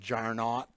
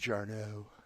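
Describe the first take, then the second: First: The name ends with an audible t sound. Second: The name ends in a vowel, no t sound. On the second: "but I think it's Jarno"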